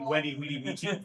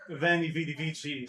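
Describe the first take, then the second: First: The words begin with a W sound. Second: The words begin with a V sound. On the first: This is the historic Latin pronunciation. "all of the V's that are in were pronounced as a W" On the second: This is the familiar modern pronunciation. "sounds a lot cooler"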